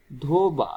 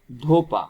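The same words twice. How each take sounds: First: Said in the usual way. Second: ধোপা with a crisp unvoiced p; changed consonant. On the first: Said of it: "ধোবা থেকে যদি আমরা বিকৃতি করি". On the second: Shown as a demonstration. Teacher showing students how ধোবা becomes ধোপা, crisp p. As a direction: say ধোপা, the b turned to a clear p. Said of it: "ধোপা পাই".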